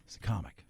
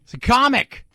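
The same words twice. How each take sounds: First: Very soft, low, comic falling away; quiet aside. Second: High, loud insistence on comic; loud emphatic. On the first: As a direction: drop to a near-mutter on comic. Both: Acted. Repeats defence, loud then quiet.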